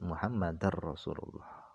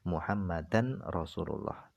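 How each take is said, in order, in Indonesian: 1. Bunyi n melebur ke dalam r yang mengikutinya. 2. Bunyi n diucapkan dengan jelas sebelum r. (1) "tidak harus diidghamkan" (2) "boleh dibaca idhar"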